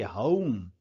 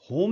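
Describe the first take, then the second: First: होम with a schwa gliding into u; correct pronunciation of home. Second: होम with a pure, single o; wrong pronunciation of home. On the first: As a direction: open होम into a glide, "huh-oom". (होम को हउम जैसा, अ से उ तक) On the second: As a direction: keep होम's vowel steady, Indian style. (होम में सीधा ओ, बिना उ के) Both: Shown as a demonstration. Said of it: "होम नहीं है ये".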